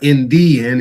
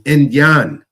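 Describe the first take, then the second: First: The middle is said with a clear 'dee' sound. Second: The middle is said with a 'yuh' sound. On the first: The speaker calls it wrong. "It's not in the end" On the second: The speaker calls it right. "It's in Yan or in John"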